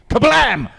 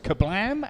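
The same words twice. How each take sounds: First: The word is said excitedly, like an exclamation. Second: The word is said flatly, without extra energy. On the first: The speaker calls it right. "It's got the exclamation mark on the end, so got, got, got to do that" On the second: The speaker calls it wrong. "I should uh, pronounce that properly"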